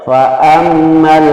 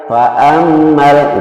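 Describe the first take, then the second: The two takes are said the same way.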